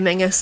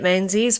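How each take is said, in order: First: The name is said with an ng sound. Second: The name is said with a z sound. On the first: "it could be Mingus as well" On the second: "the people that I know with that surname say it Menzies"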